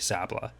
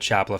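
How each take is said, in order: First: The name begins with an s sound. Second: The name begins with a ch sound. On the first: "I keep calling the Chapla family Sapla" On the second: "they all start with C S, which then becomes Ch"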